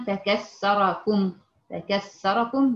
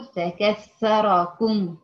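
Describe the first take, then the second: First: فكسركم drawn out slowly with a plain s instead of th; demonstrating the mistake of s for th; wrong s sound. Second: فكسركم said very slowly with a clear th; demonstrating the correct th; correct th sound. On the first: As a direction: stretch فكسركم with an s. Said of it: "بالسين". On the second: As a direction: stretch فكسركم, stressing the th. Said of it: "وهي مفروض". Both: Shown as a demonstration.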